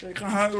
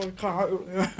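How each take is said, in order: First: Said in the usual way. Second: Softly, "huilen" with a catch in the voice, close to tears; mock about to cry, hushed; half-joking tearful. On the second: (half-gespeeld huilerig, zacht)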